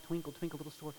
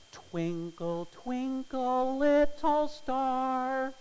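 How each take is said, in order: First: Lightly hummed tune, quieter; sung, plink the notes out gently; sung, soft tune. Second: Sung, high, loud, very slow singsong; sung nursery tune. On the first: Sung, preacher imitating the pianist's gentle melody, soft and quiet. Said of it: "dinking out". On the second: Sung, preacher imitating the little boy's melody, high, slow singsong. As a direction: sing it out like a child's tune. Boy plays the tune on stage. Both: Retold or imitated.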